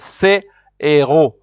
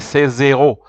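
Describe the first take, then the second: First: No z sound links into the second word. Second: The s links to make a z before the second word. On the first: It means these heroes. The speaker calls it right. "So here you will say" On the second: It sounds like these zeros. The speaker calls it wrong. "if you join, you say"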